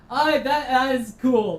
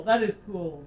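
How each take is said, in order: First: Excited. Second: Said in the usual way. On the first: Real, not acted. Delighted after the scare.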